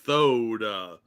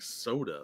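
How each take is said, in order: First: The word begins with a lisped th sound. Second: The word begins with a plain s sound. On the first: "I thought he was saying T H" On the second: "he's saying soda"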